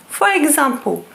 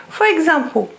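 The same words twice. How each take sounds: The two takes are said the same way.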